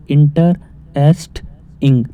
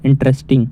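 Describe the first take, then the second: First: interesting slowly split into three parts with pauses; slow teacher's breakdown of interesting; broken into syllables. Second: Said in the usual way. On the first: Shown as a demonstration. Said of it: "अब इसे हम तोड़ रहे हैं". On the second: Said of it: "तीन type में टूट गई है".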